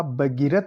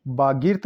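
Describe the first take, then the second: First: Said in the usual way. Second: बागीर्थ with long baa, closed ending; mispronounced भगीरथ. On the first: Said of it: "भगीरथ होता है". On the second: Shown as a demonstration. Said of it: "बागीर्थ नहीं होता".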